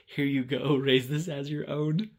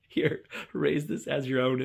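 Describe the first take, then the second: First: Solemn offer through laughter; laughing offer. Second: Slow mock-solemn through laughter; grandly bestow it, giggling; slow laughing solemnity. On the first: Retold or imitated. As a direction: hand it over with a laugh. Son handing egg, laughing. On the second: Retold again, slow, laughing.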